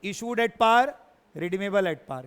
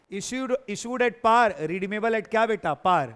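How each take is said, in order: First: Said in the usual way. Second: "issued at par" drawn out slowly, word by word; slow it down so they can write it; slow dictation. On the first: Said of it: "ऐसे ही रटा होना चाहिए". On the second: Shown as a demonstration. Teacher telling students to write the case, slowly. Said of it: "तो लिखो ना फिर".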